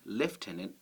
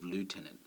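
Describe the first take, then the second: First: The first syllable is said with an f sound. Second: The first syllable is said with an oo sound. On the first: This is the form people actually say. "how did we end up saying lieutenant" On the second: This is the form the spelling suggests. "instead of lieutenant"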